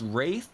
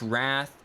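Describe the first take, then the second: First: The word is said with the vowel of 'raith'. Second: The word is said with the vowel of 'rath'. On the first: The speaker calls it wrong. "I pronounce wrath as wraith, ... which is apparently incorrect" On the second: The speaker calls it right. "I pronounce wrath as wraith"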